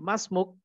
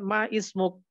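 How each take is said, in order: First: The words merge with no separate 'i' vowel. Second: A separate 'i' vowel is sounded before 'smuk'. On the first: The speaker calls it right. "tapi masmuk" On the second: The speaker calls it wrong. "bukan ma ismuk"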